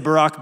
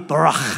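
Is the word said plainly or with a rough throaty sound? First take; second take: plain; throaty. First: The word is said with plain English sounds. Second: The word has a rough sound from the throat. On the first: The speaker calls it wrong. "that's our English butchering of Barak. If I say Barak, B-A-R-A-K, you're not getting it" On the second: The speaker calls it right. "like you got a little piece of popcorn stuck in the back of your throat"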